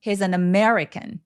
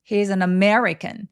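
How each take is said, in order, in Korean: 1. 단어들을 한 호흡에 이어서 말해요. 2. 단어들을 한 호흡에 이어서 말해요.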